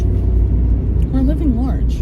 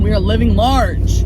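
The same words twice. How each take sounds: First: Slow, drawn-out fake European accent; put-on Italian-French accent. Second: Said in the usual way. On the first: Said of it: "I don't know what kind of accent that was".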